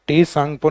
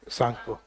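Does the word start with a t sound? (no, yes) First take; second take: yes; no. First: The word begins with a t sound. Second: The word begins with an s sound. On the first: The speaker calls it wrong. "टी सांगपो नहीं होके" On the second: The speaker calls it right. "टी silent होता है"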